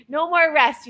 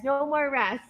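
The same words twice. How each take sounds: First: No more rest called out louder, pushing hard; firm coach call. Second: Said in the usual way. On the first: Shown as a demonstration. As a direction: bark it at the class.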